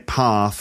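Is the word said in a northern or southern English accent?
southern. It is said in a southern English accent. "we in the south... Let's say people say path"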